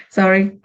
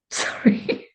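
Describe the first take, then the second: First: Said in the usual way. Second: Breathy giggling sorry through real laughter; laughing apology. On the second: Real, not acted. Laughing as she apologises for the spilled cards. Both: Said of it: "I'm laughing because".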